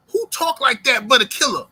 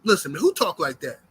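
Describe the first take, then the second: First: Louder repeat. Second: Said in the usual way. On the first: Real, not acted. To boxing fans about Devin Haney, louder amazed repeat. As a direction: repeat it louder and higher, hitting WHO.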